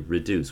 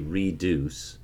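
First: The first vowel is a short reduced sound. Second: The first vowel is a full 'ee' sound. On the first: The speaker calls it right. "we say reduce" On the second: The speaker calls it wrong. "we don't say reduce"

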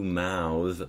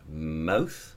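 First: The word ends in a voiced consonant. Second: The word ends in a voiceless consonant. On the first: It is the verb. "the verb. And mouth is followed by a voiced consonant" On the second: It is the noun. "the noun"

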